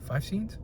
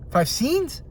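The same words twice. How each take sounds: First: Much softer, almost an aside; offhand estimate. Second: High, rising disbelief; incredulous. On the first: Film fan guessing at an actor's screen time, offhand and soft. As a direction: drop the volume on a passing guess. First mention before incredulous repeat. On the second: Film fan balking at an actor's tiny role, incredulous. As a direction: question it in disbelief, pitched way up. Incredulous repeat of his own figure. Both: Real, not acted.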